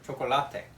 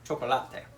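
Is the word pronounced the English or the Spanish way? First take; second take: Spanish; Spanish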